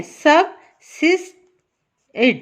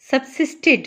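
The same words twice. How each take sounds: First: "subsisted" as sub... sis... ted, long gaps; three separate syllables. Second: Said in the usual way. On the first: Shown as a demonstration. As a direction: break "subsisted" into three slow, widely spaced parts. ("subsisted" तीन हिस्सों में, रुक-रुक कर) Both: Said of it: "इसके अब three हैं".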